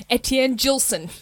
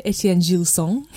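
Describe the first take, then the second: First: Etienne Gilson in a broad Australian accent; Australian-accented name, no French sounds. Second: Etienne Gilson in a French accent. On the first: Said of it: "In my Australian accent". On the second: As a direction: give the name a French pronunciation, nasal final vowel in Gilson. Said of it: "little French accent there". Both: Shown as a demonstration.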